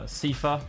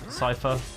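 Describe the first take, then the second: First: The first syllable sounds like 'see'. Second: The first syllable sounds like 'sigh'. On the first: "I always called him Sifa because S T I should like would be C" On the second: "not Psy"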